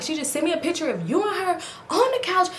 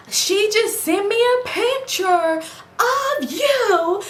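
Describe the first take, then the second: First: Said in the usual way. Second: High, slow, drawn-out mock voice of herself; exaggerated quoting voice. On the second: Retelling how she confronted her boyfriend, in a high drawn-out put-on voice. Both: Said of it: "let me talk regular".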